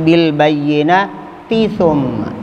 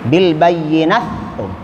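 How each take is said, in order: First: The t is pronounced clearly before the th. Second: The t merges into the following th. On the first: The speaker calls it right. "tapi bil bayyinati thumma" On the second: The speaker calls it wrong. "Tidak dibaca bil bayyinat thum"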